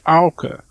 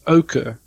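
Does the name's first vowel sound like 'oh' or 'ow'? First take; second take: ow; oh. First: The first vowel sounds like 'ow'. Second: The first vowel sounds like 'oh'. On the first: "in Frisian, it's Auke. And Auke is an English sound, like cow" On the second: "in South Africa, you pronounce it Auke, almost like the color"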